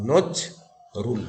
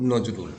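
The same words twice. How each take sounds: First: নজ, রুল as two separate beats with a pause between; syllable by syllable. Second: Said in the usual way. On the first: Shown as a demonstration. Teacher showing students the two syllables, নজ and রুল said separately. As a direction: break it into নজ ... রুল. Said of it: "দুটো ঝোঁকে উচ্চারণ করতে পারবো". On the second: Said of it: "এই শব্দটাকে যদি আমরা উচ্চারণ করি".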